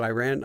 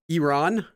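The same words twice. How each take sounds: First: The first syllable sounds like the word 'eye'. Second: The first syllable does not sound like 'eye'. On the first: The speaker calls it wrong. "I grew up saying it as Iran because like I ran" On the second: The speaker calls it right. "I pronounced Iran wrong"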